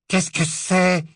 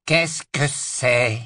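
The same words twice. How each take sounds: First: High, cold questioning woman; icy woman's voice. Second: Slow, drawn-out haughty drawl. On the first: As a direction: ask coldly from behind the gate. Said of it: "demanda la voix glacée d'une femme". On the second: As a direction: drawl the question lazily. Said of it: "La voix traînante". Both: Acted.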